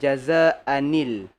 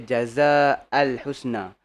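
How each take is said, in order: First: An n sound links the word to al. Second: No n sound links the word to al. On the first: The speaker calls it right. "Seolah-olah ada nun kat sini. nun ini tidak ditulis tapi nun ni disebut" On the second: The speaker calls it wrong. "Dia takkan boleh kita baca"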